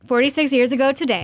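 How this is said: The voice falls at the end like a statement. It sounds like a statement. "sounds more like a statement"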